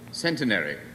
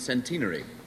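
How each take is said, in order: First: It is said in an American accent. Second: It is said in an English accent.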